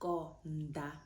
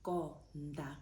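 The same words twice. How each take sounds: First: The d is soft, tongue between the teeth. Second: The same.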